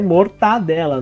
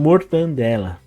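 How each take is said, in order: First: The second syllable has no added n sound. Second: An extra n sound nasalizes the second syllable. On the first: This is the standard form. The speaker calls it right. "a forma correta" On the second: This is a common nonstandard form. The speaker calls it wrong. "algumas pronúncias diferentes"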